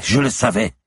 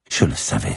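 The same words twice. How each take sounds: First: High, louder cry of certainty; agitated outburst. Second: Grim realisation. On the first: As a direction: burst out, pitch leaping up. Repeated as an outburst. (éclat de voix aigu et agité) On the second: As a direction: say it contained, before the outburst. First of repeated agitated exclamation. (constat sombre, encore retenu) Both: Acted.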